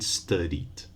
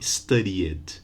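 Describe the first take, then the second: First: Studied as two syllables, STUD-eed; just add d to the end of study in studied; studied ending straight in d; no extra vowel. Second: Studied mispronounced with three syllables, STUD-ee-id; studied said wrongly as study-ed; wrong extra vowel. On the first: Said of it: "but cried and studied". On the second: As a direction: add a vowel before the last d in studied. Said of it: "without an extra vowel. So not studied". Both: Shown as a demonstration.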